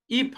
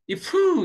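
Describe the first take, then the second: First: The word ends in an unreleased, closed p sound. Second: The p is released with an added vowel after it. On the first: The speaker calls it right. "입 하면 어떻게 돼?" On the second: The speaker calls it wrong. "이프 이렇게 하지 않잖아"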